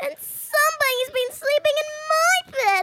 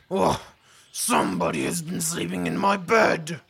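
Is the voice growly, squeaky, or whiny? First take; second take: squeaky; growly. First: It is said in a high, loud squeaky voice. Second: It is said in a big, deep, growly voice.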